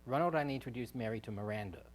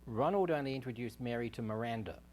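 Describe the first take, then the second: The two takes are said the same way.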